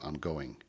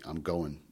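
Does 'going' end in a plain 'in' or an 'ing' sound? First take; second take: ing; in. First: The word ends with a full 'ing' sound. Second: The word ends with a plain 'in' sound. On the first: "instead of" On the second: "used IN instead of ING"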